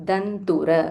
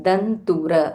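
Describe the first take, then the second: Both takes have the same delivery.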